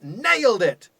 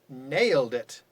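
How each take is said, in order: First: It is said with genuine, pleased intonation. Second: It is said with mocking, ironic intonation. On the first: The result was truly a success. "whoa, ninety-nine percent" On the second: The result was actually a failure. "so you can change your intonation and we can get irony"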